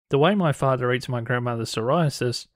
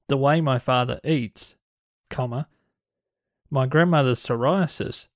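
First: It runs on with no break after "eats". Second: There is a break after "eats".

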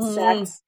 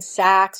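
First: The vowel sounds like the 'e' in sex. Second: The vowel is the open 'a' of sacks. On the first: "if you're in Wisconsin ... you say sacs" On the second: "instead of saying sacs"

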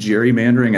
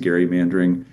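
First: The word begins with a J sound. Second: The word begins with a hard G sound. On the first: This is the pronunciation most people use. "Just about everyone has adopted the pronunciation gerrymandering. I think it sounds like jerry-rigging" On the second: This is the pronunciation few people still use. "I stick to gerrymandering"

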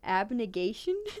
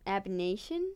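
First: The word is said with a g sound. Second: The word is said without a g sound. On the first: The speaker calls it right. "I think it is abnegation" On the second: The speaker calls it wrong. "There's a G in there. Is it silent?"

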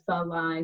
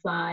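First: A short schwa separates the f and l. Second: The f and l are joined with no vowel. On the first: The speaker calls it wrong. "so they insert that schwa" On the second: The speaker calls it right. "instead of fly"

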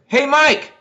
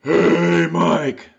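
First: It is shouted with no gasp before it. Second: A loud gasp of breath comes before it.

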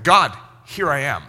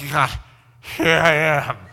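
First: It is said in a clear, alert voice. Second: It is said in a dull, tired voice.

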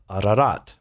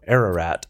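First: The name is said in a non-American way. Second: The name is said the American way.

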